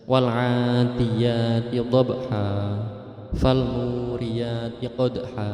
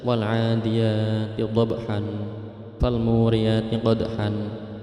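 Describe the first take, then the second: First: The final words end with a long vowel. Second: The final words end with an n sound. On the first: The speaker calls it right. "tanwinnya dihilangkan tapi dibaca panjang" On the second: The speaker calls it wrong. "kemarin saya uh, menyimak ada yang membaca"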